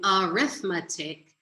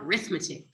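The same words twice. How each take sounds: First: The word starts with a vowel sound. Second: The word starts with an R sound. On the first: The speaker calls it right. "instead of saying arithmetic" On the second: The speaker calls it wrong. "they just call it arithmetic"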